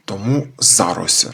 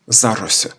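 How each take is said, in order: First: «тому за Рось» slowed, with за carrying the stress; slow demonstration stressing за in «за Рось»; stress on за, slowly. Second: «За Рось» with the weight on за, Рось unstressed; stress on за. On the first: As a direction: draw out «за Рось» and hit за. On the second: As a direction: lean on the preposition за in «За Рось». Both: Shown as a demonstration. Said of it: "Тут наголос на за".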